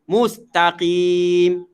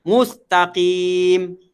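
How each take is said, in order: Both takes have the same delivery.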